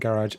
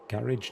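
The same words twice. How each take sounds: First: It is said with an American pronunciation. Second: It is said with a British pronunciation. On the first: The speaker calls it wrong. "Said that a bit American then" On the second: The speaker calls it right. "Garage, not garage"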